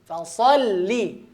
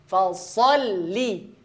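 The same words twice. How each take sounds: No difference in how they are said.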